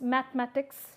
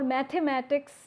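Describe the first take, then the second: First: A middle vowel is dropped, shortening the word. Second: Every syllable of the word is pronounced fully. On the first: The speaker calls it right. "it's mathematics" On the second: The speaker calls it wrong. "It's no more mathematics"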